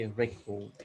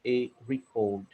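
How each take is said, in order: First: RECORD as REK-ord, short "eh" first; correct noun pronunciation. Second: RECORD wrongly as ree-CORD; mistaken noun pronunciation. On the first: Grammarian correcting the noun, record said REK-ord. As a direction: put record's stress on the first syllable. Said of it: "Instead, you would say". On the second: Grammarian showing the error, noun record said ree-CORD. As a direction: put record's stress on the second syllable. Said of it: "You would not say". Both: Shown as a demonstration.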